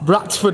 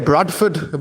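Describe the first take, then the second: First: The middle consonant is a T, with no D. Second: The middle consonant is a D, not a T. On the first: "Bradford with a T" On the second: "we could say Bradford"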